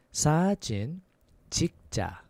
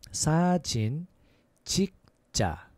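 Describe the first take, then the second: The two takes are said the same way.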